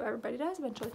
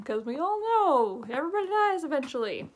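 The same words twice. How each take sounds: First: Softer, murmured agreement; soft resigned aside; quiet musing. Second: Said in the usual way. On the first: Real, not acted. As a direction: say it to yourself, conceding. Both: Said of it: "Well, true".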